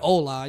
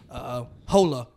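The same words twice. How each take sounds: First: It is said with a native Spanish accent. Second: It is said with a clumsy American accent. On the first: The speaker calls it right. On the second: The speaker calls it wrong.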